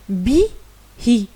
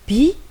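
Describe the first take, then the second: First: The vowel i is echoed with a breathy hi. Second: The word ends plainly on the vowel i. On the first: The speaker calls it right. "on va prononcer bi, hi, parce qu'il y a ces deux petits points" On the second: The speaker calls it wrong. "de prononcer seulement bi"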